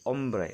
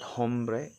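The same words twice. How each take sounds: First: The word starts without any H sound. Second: The word starts with an audible H sound. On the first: The speaker calls it right. "it's silent H" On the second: The speaker calls it wrong. "It's not hombre"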